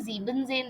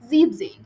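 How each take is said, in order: First: The word is said with three syllables. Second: The word is said with two syllables. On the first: The speaker calls it wrong. "That is completely wrong" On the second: The speaker calls it right. "It is siebzehn"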